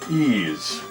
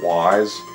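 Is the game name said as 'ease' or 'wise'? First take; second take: ease; wise. First: The name is said like 'ease', without a w. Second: The name is said like 'wise', with a w. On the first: This is how the speaker says it now. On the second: This is how the speaker said it when younger.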